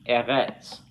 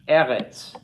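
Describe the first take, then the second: First: The stress is on the last syllable. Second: The stress is on the first syllable. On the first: The speaker calls it wrong. "not eretz" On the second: The speaker calls it right. "it should be pronounced eretz"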